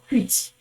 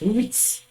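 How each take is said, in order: First: The word begins with an audible h sound. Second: The word begins without any h sound. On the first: The speaker calls it wrong. "You could have said uh, hit or hit or hoot. No" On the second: The speaker calls it right. "the H is silent... this is how it's actually pronounced"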